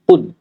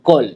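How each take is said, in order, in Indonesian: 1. Vokal diucapkan dengan mulut hampir tidak terbuka. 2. Vokal diucapkan dengan mulut terbuka lebar. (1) "kita buka sekadar yang huruf itu akan keluar" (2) "Bukan qol"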